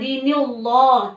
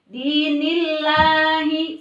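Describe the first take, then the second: First: The 'lah' sound is heavy and full. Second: The 'lah' sound is thin and light. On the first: The speaker calls it wrong. "jangan dibaca dinillah" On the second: The speaker calls it right. "tapi dinillahi seperti itu"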